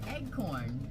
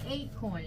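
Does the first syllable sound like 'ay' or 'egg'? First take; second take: egg; ay. First: The first syllable sounds like 'egg'. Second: The first syllable sounds like 'ay'. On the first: "And she said, eggcorn" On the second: "I said, say acorn"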